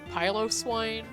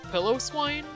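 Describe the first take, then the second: First: The first part does not sound like pillow. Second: The first part sounds like the word pillow. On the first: This comes from a word meaning hairy. The speaker calls it right. "it was actually Piloswine" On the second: This is how it was heard in childhood. The speaker calls it wrong. "I used to think it was Pillow Swine"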